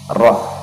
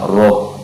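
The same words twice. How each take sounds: First: The h is airy, light and lifted up. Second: The h is pressed down and heavy. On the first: The speaker calls it right. "mengalirkan angin juga, jadi dia dibaca tipis" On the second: The speaker calls it wrong. "jangan dibaca roh, jangan dibaca ditekan ke bawah"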